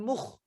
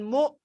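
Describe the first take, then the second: First: A rasping kh sound follows the vowel. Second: The vowel ends with no consonant after it. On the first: "jangan mukh" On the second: "Jangan mu"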